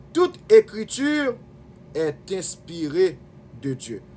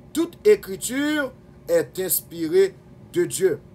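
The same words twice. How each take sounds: Both takes have the same delivery.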